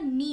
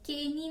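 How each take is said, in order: First: The word begins with an n sound. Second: The word begins with a k sound. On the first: The speaker calls it right. "नी होता है सिर्फ" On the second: The speaker calls it wrong. "के नी नहीं होता"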